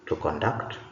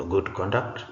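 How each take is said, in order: First: To conDUCT, verb stress; stress on second syllable. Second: Good CONduct, noun stress; stress on first syllable. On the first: Teacher reads the bold verb, second-syllable stress on "conduct". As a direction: hit "duct" in "to conduct". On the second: Teacher reads the bold noun, first-syllable stress on "conduct". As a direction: hit "con" in "good conduct". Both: Shown as a demonstration. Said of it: "emphasis is going to be on the words".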